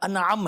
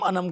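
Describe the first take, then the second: First: The second vowel is long, after a break. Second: The second vowel is short, with no break. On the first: The speaker calls it right. "असल उस word का pronunciation है" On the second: The speaker calls it wrong. "हमारे यहाँ common क्या है, अनम अनम कहते रहते हैं"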